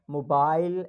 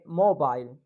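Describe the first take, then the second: First: Said in the usual way. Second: British intonation on "mobile"; British accent. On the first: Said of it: "we used to say". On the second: Shown as a demonstration. Teacher shows how British say it, British accent. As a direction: lift "mo", drop "bile", British style. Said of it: "In British they say mobile".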